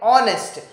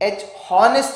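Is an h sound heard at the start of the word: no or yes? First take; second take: no; yes. First: The word starts with a vowel, no h sound. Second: The word starts with an audible h sound. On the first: The speaker calls it right. "we will call it honest" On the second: The speaker calls it wrong. "h honest नहीं बोलते"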